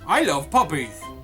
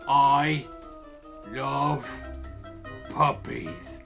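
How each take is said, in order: First: It is said smoothly, without dramatic pauses. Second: It is said with dramatic pauses between words.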